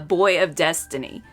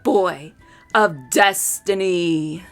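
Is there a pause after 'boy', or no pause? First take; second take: no pause; pause. First: It is said evenly, without a pause. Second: A pause after boy; destiny slow, deep.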